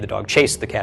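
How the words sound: The word chased is stressed. The dog chased the cat rather than playing with it. "is emphasizing that he chased the cat"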